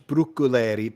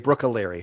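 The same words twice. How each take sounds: First: The name is said with Italian pronunciation. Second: The name is said with American pronunciation. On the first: This is the original Italian way. "if you want to say it Italian wise" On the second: This is how the family says it. "but we just say"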